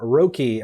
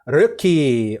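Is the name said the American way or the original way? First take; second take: American; original. First: The first vowel is a plain American o. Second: The first vowel has a rounded, non-English sound.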